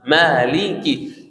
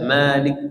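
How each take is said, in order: First: The word ends with a short clear i. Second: The word ends without its final vowel. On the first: The speaker calls it right. "harus kasrannya jelas Maliki" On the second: The speaker calls it wrong. "Tidak boleh baca Malik Yaumiddin"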